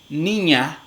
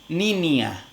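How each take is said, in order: First: The middle nasal is a single palatal sound. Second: The middle nasal is an alveolar n plus i. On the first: "en lugar de decir" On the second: "realizan una alveolar nasal junto con la vocal i"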